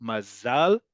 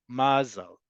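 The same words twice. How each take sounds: First: "Mazal" with stress on ZAL and a rise; "Mazal" with a clear ah on ZAL; modern stress. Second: "mazel" with stress on MA, reduced eh; "mazel" with a falling first-syllable stress. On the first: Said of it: "always on the last syllable". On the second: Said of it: "the default is on the penultimate". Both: Shown as a demonstration.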